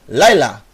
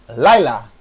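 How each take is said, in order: The two takes are said the same way.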